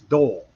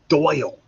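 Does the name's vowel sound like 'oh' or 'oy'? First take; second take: oh; oy. First: The vowel is a plain 'oh' sound. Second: The vowel is an 'oy' glide sound. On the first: This is how the name is said in the South. The speaker calls it wrong. "down south that's Dole" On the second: This is how the name's owner says it. The speaker calls it right. "It's not Doll, it's Doyle"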